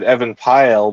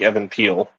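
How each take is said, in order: First: The second name rhymes with pile. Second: The second name rhymes with peel. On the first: This is how it was said in earlier years. "like when I was younger, I said Evan Pyle" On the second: This is how it was said later on. "later on I was like Evan Peel"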